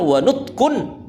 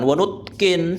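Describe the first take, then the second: First: The word ends with an 'un' sound. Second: The word ends with an 'in' sound. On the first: The speaker calls it right. "cara bacanya adalah wanutkun" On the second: The speaker calls it wrong. "bukan wanutkin"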